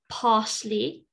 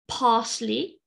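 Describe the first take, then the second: First: It is said in a British English accent. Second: The same.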